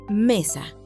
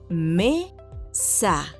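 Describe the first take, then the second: First: It is said at normal speed. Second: It is said slowly, syllable by syllable.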